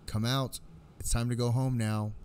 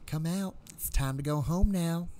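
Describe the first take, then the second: First: It is said in the speaker's natural voice. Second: It is said in a put-on, higher-pitched voice.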